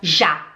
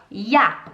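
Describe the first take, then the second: First: The j is pronounced the Portuguese way. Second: The j is pronounced the German way. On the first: The speaker calls it wrong. "a gente não fala já" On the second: The speaker calls it right. "A gente fala ja, que é o J"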